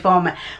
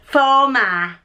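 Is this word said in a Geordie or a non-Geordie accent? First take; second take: non-Geordie; Geordie. First: It is said in a non-Geordie accent. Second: It is said in a Geordie accent. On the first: This is not how locals say it. "I wouldn't say former" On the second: This is how northeast locals say it. "We'd say former"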